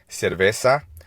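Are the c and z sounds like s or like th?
s. The c and z sound like s. This is how it is said in Latin America. "pronounced as an S in Latin America"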